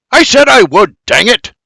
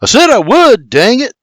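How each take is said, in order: First: High, loud exasperated outburst; barked. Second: High, louder irritated retort; barked. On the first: Man in the wagon barks at the sky, exasperated. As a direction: bark it at the heavens. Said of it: "B B barks at the sky". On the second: William barks while stomping past the wagon, irritated. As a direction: snap back, fed up with nagging. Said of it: "William barks". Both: A narrator's reading.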